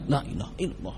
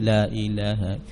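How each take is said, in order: First: The phrase is said fast. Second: The phrase is said slowly.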